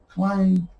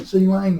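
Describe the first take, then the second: First: The C is blended into one syllable. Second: The letter C is said as a separate sound. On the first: "instead of Clang" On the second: "So they all pronounce the C. So I am going to say C Lang"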